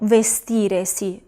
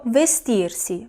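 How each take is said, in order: First: An extra e sound comes before si. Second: The r runs straight into si. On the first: The speaker calls it wrong. "Yo no digo vestiresi" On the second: The speaker calls it right. "sino que digo vestirsi"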